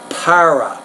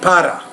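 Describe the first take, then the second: First: The R is said the English way. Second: The R is said the Spanish way. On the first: The speaker calls it right. "Now in English, it's para" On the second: The speaker calls it wrong. "In Spanish, you might say para"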